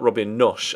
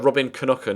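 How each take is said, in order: First: The surname ends with an 'sh' sound. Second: The surname ends with a 'ka' sound. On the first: The speaker calls it wrong. "as I previously tried to pronounce it" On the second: The speaker calls it right. "how to pronounce his name"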